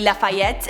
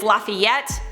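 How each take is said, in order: First: It is said with a French accent. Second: It is said with an American accent. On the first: "that is how you say it" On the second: "With an American accent, it's Lafayette"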